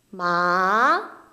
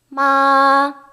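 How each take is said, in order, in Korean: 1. 가운데에서 위로 올라가요. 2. 음이 높은 상태로 평평하게 길게 유지돼요. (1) "이성 중간에서" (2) "일성 마 그렇죠. 좀 길게"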